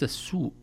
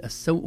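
First: السوء misread as "as-soo"; wrong long U. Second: السوء as "as-saw", a diphthong; open S, saw. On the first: Teacher showing the error to avoid, "as-soo". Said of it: "وليس السوء". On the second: Teacher showing the correct vowel, "as-saw". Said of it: "نقول السوء وليس". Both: Shown as a demonstration.

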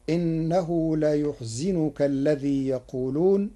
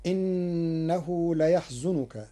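First: ليحزنك said la-yuh-zi-nu-ka; Warsh reading. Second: Slow recitation with ليحزنك as layahzunuka; Hafs reading. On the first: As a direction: recite ليحزنك as layuhzinuka. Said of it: "بضم الياء وكسر الزاي، فتصير". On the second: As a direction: chant ليحزنك with a on the ya. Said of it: "بضم الياء وكسر الزاي". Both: Shown as a demonstration.

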